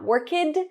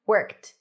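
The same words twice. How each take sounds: First: The word ends with a D sound. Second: The word ends with a T sound. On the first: The speaker calls it wrong. "Not worked. We do not put a D there" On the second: The speaker calls it right. "just a T"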